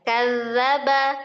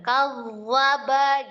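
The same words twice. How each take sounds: First: The doubled dh sound is light and plain. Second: The doubled dh sound is thick and heavy. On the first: The speaker calls it right. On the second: The speaker calls it wrong.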